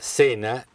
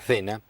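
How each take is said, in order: First: It is said with an Argentine pronunciation. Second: It is said with a Spanish (Spain) pronunciation. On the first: "en la Argentina se diga cena" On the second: "y en España cena"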